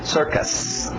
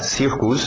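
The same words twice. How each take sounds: First: The first vowel is an 'er' sound. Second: The first vowel sounds like a Portuguese 'i'. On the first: The speaker calls it right. "É sir, sir, aquele velho som de er" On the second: The speaker calls it wrong. "cuidado para não uh, falar circus"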